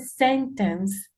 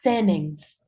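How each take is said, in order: First: The t sound after the n is pronounced. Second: The t sound after the n is dropped. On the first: "en vez de sentence" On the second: "obviando la T"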